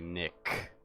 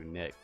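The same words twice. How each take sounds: First: The final K sound is strongly emphasized. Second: The final K sound is said normally.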